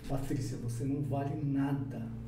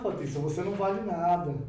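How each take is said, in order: First: It is said in a serious, hostile tone. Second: It is said in a light, joking tone. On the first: The remark is a real insult. "É totalmente diferente a maneira como eu me expressei" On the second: The remark is only a playful tease. "Estou aqui brincando e tal"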